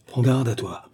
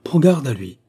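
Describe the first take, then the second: First: Contained warning, GARDE À TOI falling; measured first warning, TOI unforced; grave warning. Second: Higher, louder GARDE À LUI; urgent, loud stress on GARDE À LUI; forceful warning. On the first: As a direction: warn with restraint on GARDE À TOI. First of two escalating warnings. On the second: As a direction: raise the voice to warn on GARDE. Second warning, escalated. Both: A narrator's reading.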